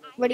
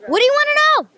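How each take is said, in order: First: It is said in a bored tone. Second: It is said in an angry tone.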